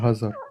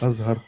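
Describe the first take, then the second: First: The name begins with an h sound. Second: The name begins with a vowel sound. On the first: The speaker calls it wrong. "pas Hazar" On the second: The speaker calls it right. "Azhar, pas Hazar"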